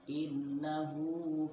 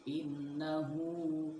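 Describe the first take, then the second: No difference in how they are said.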